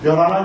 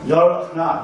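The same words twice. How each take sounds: First: The sounds run together across the syllables. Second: Each syllable is said separately, as spelled. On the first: The speaker calls it right. "이래야 되는데" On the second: The speaker calls it wrong. "방송인들은 전부 열하나, ... 이런 식으로 발음하고 있어요. 이게 다 글자대로 발음해요"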